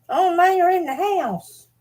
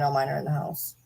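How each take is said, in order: First: Very high, slow cartoonish voice; silly high voice. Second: Said in the usual way. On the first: Real, not acted. Vlogger repeats herself to the camera in a squeaky silly voice.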